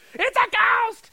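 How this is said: It is said in a frantic panic.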